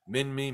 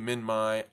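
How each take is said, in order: First: The final syllable sounds like 'me'. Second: The final syllable ends in a different vowel. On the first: This is how it is said outside Australia. "I've always called it Minmi. ... pronounce it me" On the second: This is how Australians say it. "They pronounce it Minmai"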